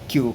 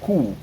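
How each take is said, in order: First: The letter is said the English way. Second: The letter is said the German way, with k. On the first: The speaker calls it wrong. "bukan Q kayak bahasa Inggris" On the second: The speaker calls it right. "tapi dia Q. Q pakai K"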